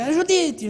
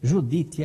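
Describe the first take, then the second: First: High-pitched mimicked phone holler; imitated unpolished phone greeting; maid's yell. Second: Said in the usual way. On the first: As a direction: sing out the name high, as a mock yell. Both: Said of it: "Já dava aquele grito".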